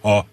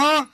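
First: It is voiced with abdominal breathing support. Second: It is voiced in a nasal voice.

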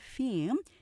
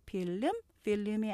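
First: The word is said as one syllable. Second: The word is said as two syllables. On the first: The speaker calls it right. "이름절로 발음하면서" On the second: The speaker calls it wrong. "필름이 아닌"

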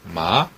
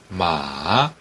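First: The pitch rises from middle to high. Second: The pitch dips low then rises. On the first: It means hemp. "삼배 할 때 그 마자죠. 이성 마" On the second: It means horse. "삼성 같은 경우는 달리는 말"

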